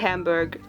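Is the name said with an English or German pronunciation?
English. The name is said with an English pronunciation. The speaker calls it wrong. "I say Hamburg ... this English pronunciation"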